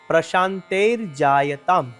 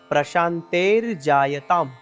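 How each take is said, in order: First: The words are joined; the first ends in r. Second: The words are joined; the first ends in r.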